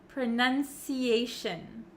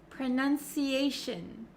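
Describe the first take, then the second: No difference in how they are said.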